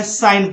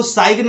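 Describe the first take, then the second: First: साइन as "sain", no G; silent G. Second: साइन wrongly said as "sai-gn"; G sounded. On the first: Teacher giving the right reading, G silent in साइन. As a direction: straight to the N in साइन. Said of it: "साइन पढ़ना है". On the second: Teacher warning students, wrong G sounded in साइन. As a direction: put a hard G before the N in साइन. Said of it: "साइन नहीं पढ़ना है". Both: Shown as a demonstration.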